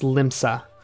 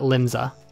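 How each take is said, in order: First: The S sound is pronounced strongly and hard. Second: The S sound is pronounced softly and lightly. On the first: The speaker calls it right. "they accented that S really hard" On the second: The speaker calls it wrong. "not Limsa"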